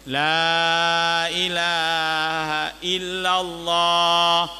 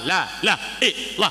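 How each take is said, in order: First: Every word, including the middle one, is said clearly. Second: The middle word is swallowed into a repeated syllable. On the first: The speaker calls it right. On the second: The speaker calls it wrong. "salah hana makna"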